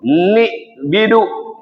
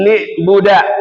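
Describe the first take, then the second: First: The word has i vowels in both first syllables. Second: The word begins with an i vowel, ending a. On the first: "dikasrahkan nunnya" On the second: "dibaca kasrah ba'nya"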